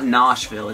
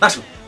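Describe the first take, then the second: First: The first vowel is long and drawn out. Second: The first vowel is short and quick. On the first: The speaker calls it wrong. "it's not Noshville" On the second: The speaker calls it right. "You gotta say it quick, short vowel"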